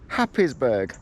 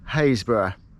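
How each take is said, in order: First: Every written syllable of the name is sounded. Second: The name is said in a shortened form. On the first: It is how an outsider would read it. The speaker calls it wrong. "you would think it's called Happisburgh" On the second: It is how locals say it. The speaker calls it right. "local pronunciations"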